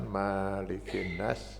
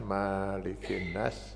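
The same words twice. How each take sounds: First: The vowel after the m is held long. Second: The vowel after the m is held long.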